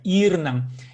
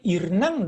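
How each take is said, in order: First: A sound in the word is stretched out. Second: The word is said short, nothing stretched. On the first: It means evening. The speaker calls it right. "надо будет вытянуть немножко" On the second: It means something about a good man. The speaker calls it wrong. "с добрым мужиком получится"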